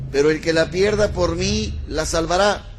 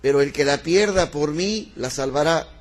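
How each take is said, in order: No difference in how they are said.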